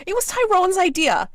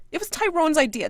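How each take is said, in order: First: High loud shriek; screaming. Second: High loud repeated shriek; screaming. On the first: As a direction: shriek the accusation. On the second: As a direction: shriek it again. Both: Acted. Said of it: "she screams".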